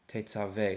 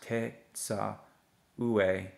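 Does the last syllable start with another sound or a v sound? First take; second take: v sound; another sound. First: The last syllable starts with a v sound. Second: The last syllable starts with a different sound. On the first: The speaker calls it right. "this word is actually pronounced as te, tsa, ve" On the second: The speaker calls it wrong. "It shouldn't be pronounced te, tsa, ue. That would be incorrect"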